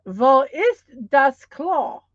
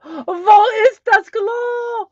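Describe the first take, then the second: First: Wo ist das Klo said slowly, V sound for Wo; careful German teaching voice; German phrase. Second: High, loud, slow pleading; hammed-up urgent need to pee; desperate for the toilet. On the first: Shown as a demonstration. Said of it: "All together now". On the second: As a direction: beg like you really need the bathroom. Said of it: "say it like I really have to go".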